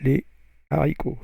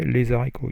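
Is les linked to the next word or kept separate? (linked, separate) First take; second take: separate; linked. First: Les and haricots are said without linking. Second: A z sound links les to haricots. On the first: The speaker calls it right. "you say" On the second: The speaker calls it wrong. "you don't say"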